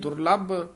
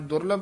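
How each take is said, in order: First: The word is said tightly pressed. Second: The word is said loosely. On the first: The speaker calls it right. "ਕਸ ਕੇ ਬੋਲਣਾ ਹੈ" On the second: The speaker calls it wrong. "ਨਹੀਂ ਕਹਿਣਾ"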